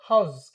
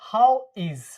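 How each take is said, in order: First: It is said as one contracted word. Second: It is said as two separate words. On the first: The speaker calls it right. "जब pronounce करेंगे तो क्या बोलेंगे" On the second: The speaker calls it wrong. "ऐसे अलग अलग बोलते हैं ना, ऐसे नहीं बोलेंगे"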